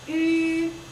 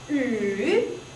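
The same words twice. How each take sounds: First: The pitch stays high and level. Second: The pitch dips low, then rises again. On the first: "First tone is flat" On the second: "third tone you go down and come up"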